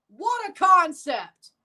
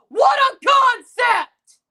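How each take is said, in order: First: Dry sarcasm. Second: Loud, slow, mocking exclamation; sarcastic shout. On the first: Repeats the sarcastic line. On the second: Fan mocking a rival team, loud and slow. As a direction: yell it sarcastically, dragging it out. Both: Real, not acted.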